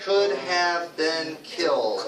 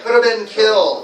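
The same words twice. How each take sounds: First: COULD HAVE BEEN KILLED word by word, slow; unreduced full form. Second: COULDA run together, louder and higher; firm model of coulda been killed, stress on killed; reduced coulda. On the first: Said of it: "we don't say have". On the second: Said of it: "Can you say that?". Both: Shown as a demonstration.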